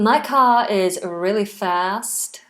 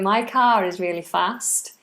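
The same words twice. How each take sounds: First: It is spoken in an American accent. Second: It is spoken in a Scouse accent. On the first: "I don't know why I'm doing an American accent" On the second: "that's the Scouse accent. Or kind of"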